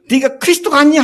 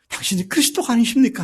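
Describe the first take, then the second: First: It is asked mockingly, as a taunt. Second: It is asked reverently, as sincere faith.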